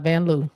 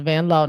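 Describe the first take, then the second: First: "Loo" rhyming with too; Van Loo mispronunciation. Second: "Lowe" rhyming with go; Van Lowe pronunciation. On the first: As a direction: say "Loo" with an oo vowel. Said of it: "not Van Loo". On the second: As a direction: say "Lowe" with a long O sound. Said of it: "That's how it's pronounced". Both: Shown as a demonstration.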